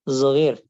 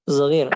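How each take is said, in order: The two takes are said the same way.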